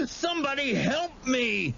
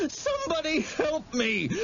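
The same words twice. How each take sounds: First: High, sobbing repeated call for help; cry for help. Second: High, sobbing shout for help; cry for help. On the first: Terrified boy calling again for rescue, sobbing. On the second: Terrified boy shouting for help as he runs, sobbing. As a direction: scream for help while fleeing. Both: A narrator's reading.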